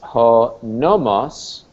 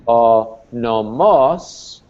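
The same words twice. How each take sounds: First: The stress is on the first syllable. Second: The stress is on the second syllable. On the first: It means law or convention. "accent on the first syllable is law or convention" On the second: It means a pasture for animals. "accent on the second syllable is pasturage"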